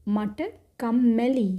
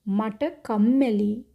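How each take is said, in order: No difference in how they are said.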